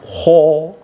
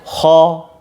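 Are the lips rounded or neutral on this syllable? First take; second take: rounded; neutral. First: The syllable is said with rounded, protruding lips. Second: The syllable is said with lips kept neutral. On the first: The speaker calls it wrong. "Jangan ho" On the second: The speaker calls it right. "Biasa aja, tetap di tempatnya"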